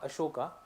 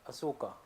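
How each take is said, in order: First: The middle consonant is a 'sh' sound. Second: The middle consonant is a plain 's' sound. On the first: The speaker calls it wrong. "not Ashoka" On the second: The speaker calls it right. "A S O K A"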